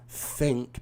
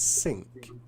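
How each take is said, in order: First: The word starts with a th sound. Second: The word starts with an s sound. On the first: The speaker calls it right. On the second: The speaker calls it wrong.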